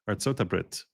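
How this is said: The words end with a 't' sound. This is how people in Israel say it. "they call the United States Artsot Habrit"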